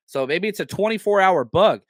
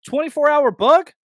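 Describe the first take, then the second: First: Said in the usual way. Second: Higher, louder, rising on "bug"; incredulous. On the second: Real, not acted. Host scoffing at the listener's excuse, incredulous and loud. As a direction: throw "Twenty-four hour bug?" back in disbelief, pitch jumping up on "bug".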